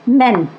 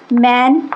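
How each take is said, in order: First: मेन with short e sound; men plural. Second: मैन with open a, said carefully; man singular. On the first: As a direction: say मेन as men, not man. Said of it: "इसका जब plural बनता है तो मेन". (मेन को 'ए' की ध्वनि से बोलें) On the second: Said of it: "जैसे". (मैन को 'मैन' खुले अ से बोलें) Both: Shown as a demonstration.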